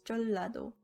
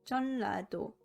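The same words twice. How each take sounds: First: The middle consonant is pronounced as an l. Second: The middle consonant is pronounced as an n.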